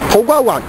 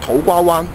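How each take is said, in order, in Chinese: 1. 最后一个音节读起来像“环”，不像“湾”。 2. 最后一个音节读起来像“湾”，不像“环”。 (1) "习惯将个湾字读成环字" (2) "照字面读应该系土瓜湾"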